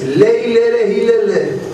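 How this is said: The vowels are pronounced as 'e' sounds.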